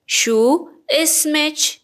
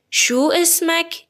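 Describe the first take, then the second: First: اسمچ ending in a -ech sound; feminine ending. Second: اسمک ending in a clear -ek; masculine ending. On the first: Teacher asks a woman's name, اسمچ slow with final ch. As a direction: draw out اسمچ very slowly, higher, final ch. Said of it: "کافیه کلمه رو به اضافهٔ چه کنید". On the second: Teacher asks a man's name, اسمک slow with final k. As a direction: stretch out اسمک slowly, higher, final k. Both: Shown as a demonstration.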